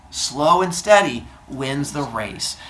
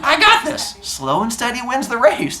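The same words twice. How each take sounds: First: Very slow, measured delivery at normal pitch; slow turtle. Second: High-pitched, chirpy self-assurance; cocky runner. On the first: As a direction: draw out the moral, word by word. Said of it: "turtle turns to look at him and goes". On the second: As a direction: boast it in a high mock voice. Acting out overconfident slow runner. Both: Acted.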